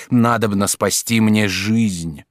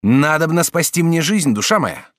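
First: Slow, deliberate plea, each word weighted; slow, insistent repetition; repeated plea. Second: Louder, urgent plea for help; urgent, pressing plea. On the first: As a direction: spell it out for her a second time. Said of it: "Повторяю". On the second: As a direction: beg her to save his life. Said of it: "сказал Жак Обри". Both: A narrator's reading.

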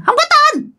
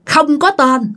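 First: "Không có tên" squealed extremely high; shrill spirit voice. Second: Said in the usual way. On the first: Acted. Storyteller shows how the spirit answered, shrill. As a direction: imitate the spirit in a piercing, thin high pitch. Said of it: "bà nói với cái giọng the thé nha". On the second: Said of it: "Nói vậy đó các bạn".

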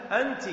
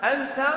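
First: أنت said anti, ending in "i"; feminine "you". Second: أنت said anta, ending in "a"; masculine "you". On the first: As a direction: end أنت on an "ee" vowel. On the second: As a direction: end أنت on an open "a". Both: Shown as a demonstration. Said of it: "رأيت".

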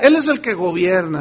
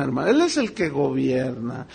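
First: Said in the usual way. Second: "Él" stressed, lower and softer, driving it home; quieter repeat. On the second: Real, not acted. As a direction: repeat "Él es el que gobierna" low and firm, leaning on "Él".

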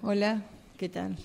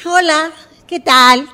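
First: Low, soft hello; subdued greeting. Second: Loud, high, drawn-out hello; effusive greeting. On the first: Acted subdued greeting, contrasting the first. (saludo apagado, bajo y suave) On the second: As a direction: burst out with an over-eager greeting. Acted over-eager greeting after counting down. (saludo efusivo, fuerte y agudo) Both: Acted.

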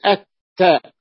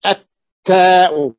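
First: التاء with the lam merged into a doubled ta; right way, lam merged. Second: التاء drawn out loud with the L pronounced; التاء stretched with a clear lam; wrong way, lam said. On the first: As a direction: say التاء as "at-taa". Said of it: "بقول التاء". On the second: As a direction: say التاء slowly and loudly, the lam heard. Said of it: "ما أقول التاء". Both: Shown as a demonstration.

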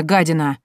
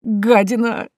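First: Short, hard insult in «гадина»; acted furious name-calling; angry insult. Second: High, whining «Гадина», rising at the end; helpless, drawn-out complaint; plaintive whine. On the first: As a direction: spit out «гадина» with a falling end. Uncle insults niece through the door. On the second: Acted. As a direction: wail the insult pitifully. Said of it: "жалобно заскулил дядюшка".

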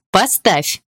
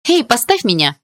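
First: Demanding. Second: High, loud yelp of protest; startled shout. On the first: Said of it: "потребовала я вновь". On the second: Girl spun in Dima's arms shouts to be put down. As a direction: yell at him to put her down. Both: A narrator's reading.

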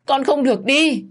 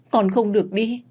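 First: Much higher, louder scream of grief; screaming wail. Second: High pleading wail; grieving plea. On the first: Mother screaming at her son's body, desperate. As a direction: scream it out in despair. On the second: Mother begging her dying son, wailing. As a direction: beg him not to die. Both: Acted. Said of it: "Bà Hạn gào lên đau đớn".

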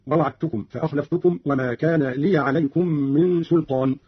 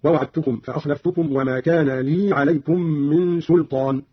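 First: Said in the usual way. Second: لي with vowelless yaa, a long lee; Qalun's silent yaa. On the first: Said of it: "قرأ قالون بإسكان الياء". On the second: Shown as a demonstration. Teacher shows Qalun's reading, لي with yaa unvowelled. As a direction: say لي as lee, no a-vowel before عليكم. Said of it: "بإسكان الياء من لي عليكم هكذا".

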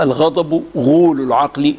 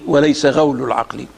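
First: غول pronounced ghūl, damma on the ghayn; vowel u on غول. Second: غول pronounced ghawl, fatha on the ghayn; vowel a on غول. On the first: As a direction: say غول with a long u, as ghool. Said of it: "غول بضم الغين". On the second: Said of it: "بفتح الغين". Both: Shown as a demonstration.

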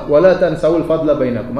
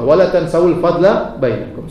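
First: Said in the usual way. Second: Slow recitation. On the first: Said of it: "Hafalkan ayat tersebut". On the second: Shown as a demonstration. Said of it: "Sudah hafal belum?".

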